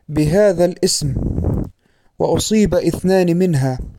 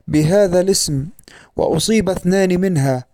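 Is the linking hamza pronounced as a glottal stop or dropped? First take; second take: pronounced; dropped. First: The linking hamza is pronounced as a glottal stop. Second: The linking hamza is dropped in connected speech. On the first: The speaker calls it wrong. "نطق همزة الوصل في أثناء الكلام بمعنى تحويلها إلى همزة قطع" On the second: The speaker calls it right. "وكان الصواب أن يقال"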